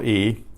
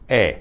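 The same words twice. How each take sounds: First: Said in the usual way. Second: E said as a pure "eh" vowel; short Spanish E, no glide; name E the Spanish way, like "eh". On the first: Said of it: "The letter we call E". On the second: Shown as a demonstration. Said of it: "in Spanish is E".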